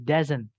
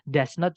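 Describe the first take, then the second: First: It is said as one contracted word. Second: It is said as two full words. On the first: The quicker form used in speaking. "Does not jadi doesn't" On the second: The form used in writing. "Does not jadi doesn't"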